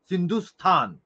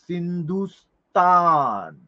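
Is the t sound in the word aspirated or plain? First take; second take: aspirated; plain. First: The t sound has a strong breathy puff. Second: The t sound is plain without breath. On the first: "थला बघा जरा जोर द्यावा लागतो बोलताना" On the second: "बोलायला जरा सोपं आहे"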